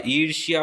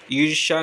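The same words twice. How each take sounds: First: ईर्ष्या said as "eershiya", with a y glide; correct pronunciation. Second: ईर्ष्या said as "eersha", no y glide; wrong pronunciation. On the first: Teacher correcting ईर्ष्या, pronounced "eershya" with the y. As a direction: end ईर्ष्या in shya. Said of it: "ईर्ष्या होता है". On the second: Teacher showing the mistaken ईर्ष्या, mispronounced as "eersha". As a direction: end ईर्ष्या in sha. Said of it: "ईर्ष्या नहीं होता". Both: Shown as a demonstration.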